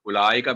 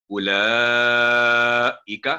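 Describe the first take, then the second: First: उलाइका with the ला and इ joined; wrong ulaika. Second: उलाइका sung slowly with no व sound; chanted ulaika. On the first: Retold or imitated. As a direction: show the mistaken reading. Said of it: "उलाइका भी नहीं पढ़ना". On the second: Shown as a demonstration. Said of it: "इसको वाओ नहीं बोला जाएगा".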